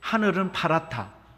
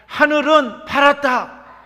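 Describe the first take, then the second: First: The phrase is said in a quiet voice. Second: The phrase is said in a loud voice. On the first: "선생님이 작은 소리로 해요" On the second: "큰 소리로"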